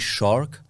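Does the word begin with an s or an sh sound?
sh. The word begins with a clear sh sound.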